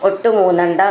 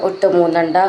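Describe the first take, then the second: The two takes are said the same way.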